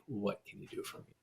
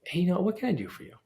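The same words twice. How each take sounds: First: Self-serving ask, muttered. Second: "what can I do for you?" lifted higher and quicker; generous offer. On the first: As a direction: throw away the taker's line quietly. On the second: Turning the narrative around, a bright generous offer. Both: Shown as a demonstration. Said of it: "turn that narrative around".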